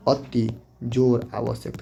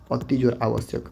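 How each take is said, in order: First: Slow dictation. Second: Said in the usual way. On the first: Shown as a demonstration. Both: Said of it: "थोड़ा ध्यान दीजिएगा".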